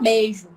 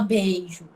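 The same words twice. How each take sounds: First: The word is said in relaxed everyday speech. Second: The word is said carefully, as it is written. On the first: This is how everyone actually speaks. "Todo mundo fala beijo" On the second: This matches the written form. "mas a gente não fala beijo"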